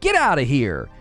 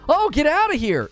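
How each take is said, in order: First: It is said in an irritated, annoyed tone. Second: It is said in a surprised, amazed tone. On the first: The speaker wants someone to leave. "say this in an irritated voice" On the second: The speaker can hardly believe what was said. "Say this in a surprised voice"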